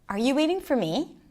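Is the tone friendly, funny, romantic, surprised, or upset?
friendly. It is said in a warm, friendly tone. "in a genuine, friendly way"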